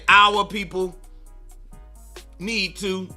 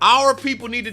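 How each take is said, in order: First: 'Our' is said with a Southern accent. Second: 'Our' is said in a standard way. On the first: "My father would say" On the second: "I say like not our"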